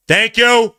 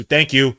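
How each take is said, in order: First: High, loud sarcastic thanks; real exasperated yell of thank you. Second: Said in the usual way. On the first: Real, not acted. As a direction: shout thank you up at the refs. Repeats the thanks louder.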